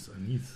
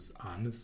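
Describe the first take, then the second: First: The stress is on the last syllable. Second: The stress is on the first syllable.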